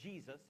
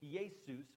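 First: The name is pronounced the English way. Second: The name is pronounced the Greek way. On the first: "is how we say it in America" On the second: "the Greek name Jesus"

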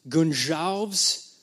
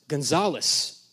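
First: The name is said the Portuguese way. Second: The name is said the Mexican way.

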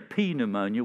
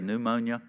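First: The word starts with an audible P sound. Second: The word starts with no P sound. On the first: The speaker calls it wrong. "we don't say P pneumonia" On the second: The speaker calls it right. "we say pneumonia"

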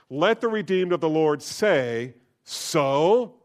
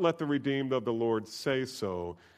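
First: The word 'so' is strongly stressed. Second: The word 'so' is not stressed.

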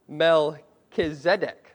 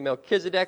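First: The stress is on the second-to-last syllable. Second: The stress is not on the second-to-last syllable. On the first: "if we're really technical, you could say Melchizedek. put the emphasis there on the second to last syllable" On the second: "we're going to go with Melchizedek"

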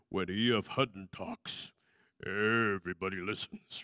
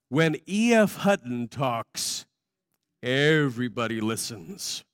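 First: It is said in a deep announcer voice. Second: It is said in his normal voice.

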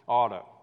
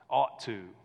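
First: The two words blend into one reduced word. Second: The two words are said separately and fully. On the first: "In the South, ... We say oughta" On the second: "we don't say ought to"

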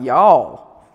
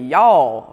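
First: The vowel is long and drawn out. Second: The vowel is short and clipped. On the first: The speaker calls it right. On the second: The speaker calls it wrong.

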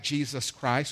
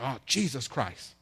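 First: It is said plainly and reverently, as a name. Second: It is said as an exasperated curse.

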